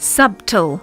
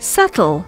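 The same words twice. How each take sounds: First: An extra sound is added to the word. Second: No extra sound is added to the word. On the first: The speaker calls it wrong. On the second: The speaker calls it right.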